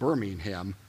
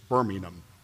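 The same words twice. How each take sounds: First: It is said with an American pronunciation. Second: It is said with a British pronunciation. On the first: "I say it" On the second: "is the British city. That's how they pronounce it"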